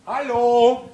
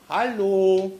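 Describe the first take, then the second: First: The hello is loud and rough, shouted away. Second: The hello is gentle and polite in tone. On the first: "ich mache das jetzt hier nicht ins Mikrofon" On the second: "dann versuchen wir es mit der höflichen Variante"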